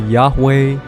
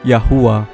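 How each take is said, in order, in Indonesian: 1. Nama itu terdiri dari dua suku kata, berakhir dengan weh. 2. Nama itu terdiri dari tiga suku kata, berakhir dengan uwah. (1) "kenapa bukan dibacanya Yahweh" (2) "Orang Ancient Hebrew menyebut namanya Yahuwah"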